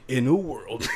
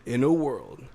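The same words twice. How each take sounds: First: First try at the trailer opener; movie trailer voice. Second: Trailer opener with a falling close; movie trailer voice. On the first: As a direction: start like a blockbuster trailer. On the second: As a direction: restart the trailer line, more settled. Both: Pretend. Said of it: "doing them in the movie trailer guy's voice".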